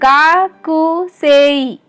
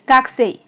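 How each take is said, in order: First: A clear u vowel follows the k sound. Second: The u vowel after the k is dropped. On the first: This is how the word is written. "ये लिखा तो जाता है गाकुसेई" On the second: This is how the word is actually spoken. "But pronounce होता है गाकुसेई। ये जो ऊ साउंड है क के साथ वो यूज नहीं होता है"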